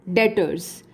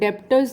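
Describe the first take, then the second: First: The word is said with no b sound. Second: The word is said with a b sound. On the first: The speaker calls it right. "इनको डेटर्स बोलते हैं" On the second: The speaker calls it wrong. "डेप्टर्स नहीं बोलते हैं"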